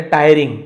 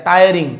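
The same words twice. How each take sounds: First: टायरिंग repeated as TAI-ring, loud; teacher repeating टायरिंग; model pronunciation. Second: टायरिंग said as TAI-ar-ring, ir read as ar; teacher demonstrating टायरिंग; model pronunciation. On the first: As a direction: say टायरिंग with ar, not ee. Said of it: "अ पढ़ना है". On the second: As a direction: show टायरिंग with ir sounding ar. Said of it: "आईआर एक साथ हो तो अर पढ़ते हैं". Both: Shown as a demonstration.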